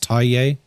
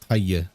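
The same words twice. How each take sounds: First: It is said in an English accent. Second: It is said in a Burmese accent. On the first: "If you're saying it with an English accent" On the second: "If you're saying it with like a Burmese accent"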